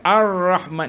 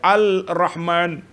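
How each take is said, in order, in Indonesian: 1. Huruf l menyatu dengan r menjadi ar. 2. Huruf l dibaca terpisah sebagai al. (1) "idgham ke Ar-Rahman" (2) "dia baca Al-Rahman"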